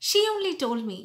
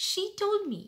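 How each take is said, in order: First: "She only told me" said louder with "She" stressed; wrong way with only. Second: Said in the usual way. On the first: Shown as a demonstration. Teacher imitating the translated-from-Hindi emphasis. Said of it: "instead of saying". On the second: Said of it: "just say".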